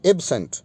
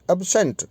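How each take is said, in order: First: absent with a full "e" opening, EB-sent; adjective pronunciation. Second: absent with a weak "uh" opening, ub-SENT; verb pronunciation. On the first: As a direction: say absent as the adjective, clear first vowel. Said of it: "ये adjective के रूप में". (विशेषण वाला उच्चारण, absent में पूरा "ए") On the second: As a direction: say absent as the verb, short first vowel. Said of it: "ये as a verb है". (क्रिया वाला उच्चारण, एब्सेंट में छोटा कमज़ोर "अ") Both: Shown as a demonstration.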